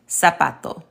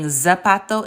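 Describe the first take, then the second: First: The first sound is a hissing s. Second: The first sound is a buzzing z. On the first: The speaker calls it right. "it's pronounced like an S" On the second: The speaker calls it wrong. "instead of saying"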